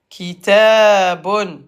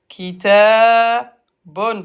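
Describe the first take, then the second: No difference in how they are said.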